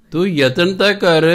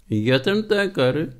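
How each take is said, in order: First: Raised high and loud, pushing the point; urging exhortation. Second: Slow, deliberate, each word weighed, ਤਾਂ leaned on; slow insistence. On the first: Preacher urging the congregation to try, loud call. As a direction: call out the challenge with a fall on ਤਾਂ. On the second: Preacher repeating the call to try, slow and deliberate. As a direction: repeat it slowly as a firm reminder. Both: Real, not acted.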